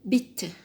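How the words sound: It is said with a British accent.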